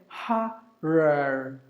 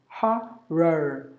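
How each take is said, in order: The two takes are said the same way.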